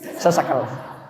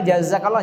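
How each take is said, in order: First: It begins with s and has another s. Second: It begins with j and has a z. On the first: The speaker calls it wrong. "jazakallah jadi sasakallah" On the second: The speaker calls it right. "Pakai jaza"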